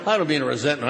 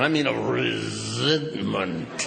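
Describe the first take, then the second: First: Said in the usual way. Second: Resentment dropped low and slow; low, slow, meaningful resentment; weighty resentment. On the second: Shown as a demonstration.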